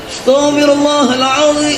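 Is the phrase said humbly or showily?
showily. It is said with careful, showy pronunciation. The speaker cares about correct articulation and voice.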